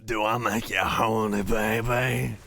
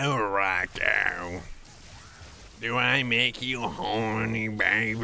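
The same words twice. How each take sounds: First: Raspy smoker's voice; a chain smoker's gravelly purr. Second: Husky smoker's rasp; gravelly voice. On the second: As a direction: purr it like a heavy smoker. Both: Pretend. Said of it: "seven packs a day cigarette voice".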